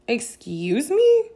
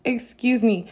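First: Drawn-out, high, loud rising "Excuse me?"; affronted question. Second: Raised "Excuse me." with a falling end; affronted, firm. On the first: Reacting to her running the conversation, affronted. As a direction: stretch it slowly upward in offended disbelief. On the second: Cut off while still talking, firmly affronted. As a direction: land it as an indignant statement. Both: Retold or imitated.

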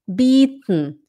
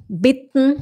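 First: "bitten" as bieten, long ee and just an n; long i, swallowed ending. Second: "bitten" with short i and just an n at the end; short i, swallowed ending. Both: Shown as a demonstration. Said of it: "a mesma coisa aqui".

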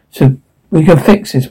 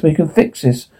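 First: Said in the usual way. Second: Soft repeat, almost to himself; quiet. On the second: Acted. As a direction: drop the repeat way down, softer. Repeated much more quietly.

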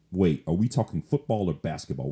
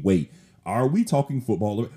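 First: Said in the usual way. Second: Mock puzzled listener. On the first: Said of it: "Let me say that again". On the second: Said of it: "in case you are kinda thinking".

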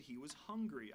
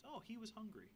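First: Said in the usual way. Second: A higher, softer ironic "Oh, he was hungry"; mock understatement. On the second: Shown as a demonstration. Preacher joking to the congregation, wry mock-surprised understatement. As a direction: say "Oh" up high, then "hungry" with a wry fall, wryly stating the obvious. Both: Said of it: "I mean, I would say so".

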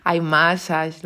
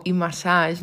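First: IMassage con el inicio en diptongo, /ajmasas/ a lo inglés; intento en inglés. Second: IMassage dicho a la española, /imasaʃ/ con ese final; su manera de decirlo. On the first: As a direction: iMassage probando el acento americano. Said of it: "me falta ese acento". (iMassage intentando sonar americano, empezando con ai) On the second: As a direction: iMassage como lo dice ella, sin acento inglés. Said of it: "como yo digo". (iMassage pronunciado a la española, con i y masaj) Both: Shown as a demonstration.

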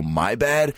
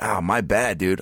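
First: Higher, questioning throwback of MY BAD; incredulous echo. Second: Casual apology. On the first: Customer echoing barber's weak apology, retold disbelief. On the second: Retold or imitated. Barber's apology, echoed back after.

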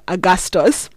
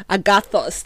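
First: "Agastos" said with an s sound instead of th, the wrong way; slip: "Agastos" with an s in the middle; mispronounced agathos. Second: "Agathos" said carefully with a clear th sound; corrected pronunciation. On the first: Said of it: "not Ag-, Augustus". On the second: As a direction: get "Agathos" right, a-ga-thos with th. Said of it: "There we go". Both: Shown as a demonstration.

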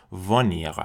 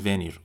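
First: "ونیر" as vuh-NEER with a Parisian throat r; "ونیر" in careful Parisian French; Parisian pronunciation. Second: "ونیر" as veh-NEER with a non-French r; "ونیر" opening on "veh", r not in the throat; worse mispronunciation. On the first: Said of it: "لهجهٔ اصیل فرانسوی و در واقع لهجهٔ پاریسی". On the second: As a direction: say "ونیر" with é for e and a foreign r. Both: Shown as a demonstration.

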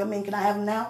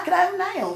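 First: Hushed ask. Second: Higher, laughing demand; playfully demanding. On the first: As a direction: slip it in quietly. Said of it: "No, I'm just kidding". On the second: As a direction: insist with a grin. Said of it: "I ain't gonna lie". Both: Pretend.

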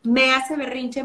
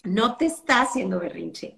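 First: "me" weighted, as if it targets the mother; stress on me. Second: "te" leaned on, then let go; stress on te. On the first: Mother complaining the child does it to her, stress on "me". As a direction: lean on "me" in "me hace berrinche". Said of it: "así hablan en Monterrey". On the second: Correcting the mother, it's not done to you, stress on "te". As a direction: put weight on "te" to correct her. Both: Shown as a demonstration.

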